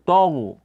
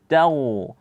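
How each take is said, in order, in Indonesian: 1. Huruf pertama terdengar tebal dan berat. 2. Huruf pertama terdengar tipis dan ringan. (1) "Jangan dibaca taghu karena di depannya ada gha yang tebal" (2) "Ta tipis, kemudian ketika membaca gha baru tebal"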